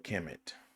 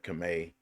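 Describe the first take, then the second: First: The name ends with an 'et' sound. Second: The name ends with an 'ay' sound. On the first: "or you can just pronounce it as E T, et" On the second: "you can pronounce the E T as A, as in ballet"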